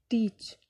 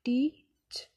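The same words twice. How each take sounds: First: Said in the usual way. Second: "टीच" split as टी… च; syllable by syllable. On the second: Shown as a demonstration. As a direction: clear pause between टी and च. (टीच को टी और च में तोड़कर) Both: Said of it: "दो syllables हैं टी और च".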